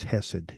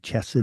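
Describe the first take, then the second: First: The word begins with a soft h sound. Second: The word begins with a harder throaty sound. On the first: "I believe it's Hesed" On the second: "some people may say Chesed"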